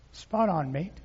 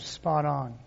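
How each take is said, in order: First: A faint stab at an Australian "Spot on, mate"; lightly done Australian twang; attempted Australian accent. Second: Said in the usual way. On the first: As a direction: try an Australian accent and barely land it. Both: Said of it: "I can't even do that accent".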